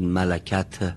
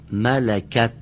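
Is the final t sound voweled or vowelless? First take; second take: voweled; vowelless. First: A vowel is added after the final t. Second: The final t is released without a vowel. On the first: The speaker calls it wrong. "یا نگید ملکت، به این شکل غلط میشه" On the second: The speaker calls it right. "رها میشه ته، اما حرکت نگیره"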